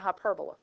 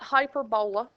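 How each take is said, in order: First: The word is pronounced in the standard way. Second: The word is pronounced in a spelling-based way. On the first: The speaker calls it right. "That's a hyperbola" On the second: The speaker calls it wrong. "that is not hyperbola"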